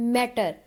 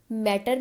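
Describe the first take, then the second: First: मैटर with the first syllable मैट stressed. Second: Said in the usual way. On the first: Shown as a demonstration. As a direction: lean on मैट and let टर fall away. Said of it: "मैट जो first one है".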